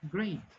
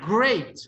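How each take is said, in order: First: The word is said very weakly and quietly. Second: The word is said loudly with strong resonance. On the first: "muchas personas lo dicen, great. No se escucha mucho" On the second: "Nivel 4"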